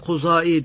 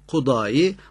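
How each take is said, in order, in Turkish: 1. Ortadaki ünsüz z olarak telaffuz edilir. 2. Ortadaki ünsüz d olarak telaffuz edilir. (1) "bazen de Kuzai diye telaffuz ediyoruz" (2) "bazen Kudai"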